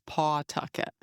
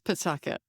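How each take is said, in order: First: The first syllable is a full 'paw' sound. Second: The first syllable is reduced to a short 'p'. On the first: The speaker calls it wrong. "Phonetically, it's" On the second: The speaker calls it right. "but it's"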